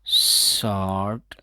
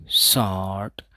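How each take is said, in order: First: शॉर्ट with the o drawn out long, no r; slow शॉर्ट, vowel held long and r silent; stretched vowel. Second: Said in the usual way. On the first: Shown as a demonstration. Teacher stretching शॉर्ट so students hear the long vowel. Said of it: "इसको हम थोड़ा लंबा करके बोलेंगे". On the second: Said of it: "तो इसका उच्चारण कैसे करेंगे".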